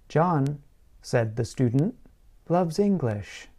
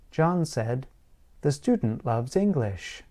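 First: The first pause comes right after 'John'. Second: The first pause comes right after 'said'. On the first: The student is saying that John loves English. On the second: John is saying that the student loves English.

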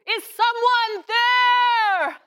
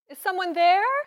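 First: It is spoken loudly and seriously. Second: It is spoken softly and quietly. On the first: The speaker calls it right. "Is that loud enough? ... Yes, that is loud enough" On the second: The speaker calls it wrong. "you are speaking too softly"

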